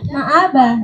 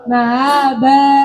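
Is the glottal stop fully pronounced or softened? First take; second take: full; softened. First: The glottal stop is pronounced fully and clearly. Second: The glottal stop is softened and eased between vowels. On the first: "Tahqiq itu ya hamzah dibaca hamzah" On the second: "yang wajah kedua tashil ya"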